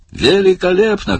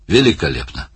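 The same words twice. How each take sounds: First: High, ringing director's cry; delighted shout. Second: Said in the usual way. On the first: A narrator's reading. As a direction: call out your approval at a much higher pitch. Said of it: "крикнул Барни". (восторженный крик, высоко)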